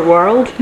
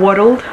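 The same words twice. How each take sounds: First: World in one syllable, plain; standard pronunciation. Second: World with two syllables, wor-uld; Scottish pronunciation. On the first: Contrasting with her Scots take, plain world. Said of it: "for world". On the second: Showing words London mocks, Scots world. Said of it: "we get slagged off for saying things like". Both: Shown as a demonstration.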